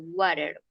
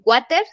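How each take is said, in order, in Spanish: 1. La T es un toque suave, como una R. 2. La T es una T dura y nítida. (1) "como si esta T sonara como una R" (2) "no vamos a decir water"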